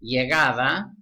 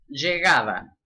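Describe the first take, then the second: First: The first consonant sounds like English y. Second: The first consonant sounds like English sh.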